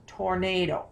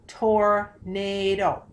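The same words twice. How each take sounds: First: Said in the usual way. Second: Tornado stretched out slowly, syllable by syllable. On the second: Shown as a demonstration. Teacher breaking the word for students, slow. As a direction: sound out tornado slowly for the class. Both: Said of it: "Let's try tornado".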